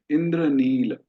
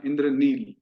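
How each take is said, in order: First: "इंद्रनील" with the final a sounded, "Indraneela"; full Sanskrit ending. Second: "इंद्रनील" ending on a bare l; clipped final l. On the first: Teacher showing students the full Sanskrit form. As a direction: voice a short a after the l of "इंद्रनील". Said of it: "संस्कृत में उसको पूरा उच्चारण करना है". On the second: Teacher showing students the Hindi way, clipped. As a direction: say "इंद्रनील" as "Indraneel" with no final vowel. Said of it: "ल में हमने हलंत लगाया". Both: Shown as a demonstration.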